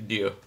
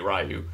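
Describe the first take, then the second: First: It starts with a soft D-like sound. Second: It starts with an English R plus a y-glide. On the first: The speaker calls it right. "more like a soft D" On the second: The speaker calls it wrong. "It's not Ryu like Street Fighter the movie Ryu"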